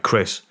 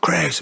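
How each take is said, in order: First: Understated stern address, no shout. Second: High-pitched mock shout of a name. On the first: Retold or imitated. Passenger addressing the driver as his face changes, understated stern. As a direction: say the name sternly at ordinary volume. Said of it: "It was stern". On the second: Shown as a demonstration. Showing how the passenger didn't say the name, mock shout. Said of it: "he didn't shout".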